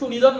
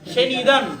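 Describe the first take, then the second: First: The first syllable has a 'u' vowel. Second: The first syllable has an 'e' vowel. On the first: The speaker calls it wrong. "যে সুনিদান নয়" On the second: The speaker calls it right.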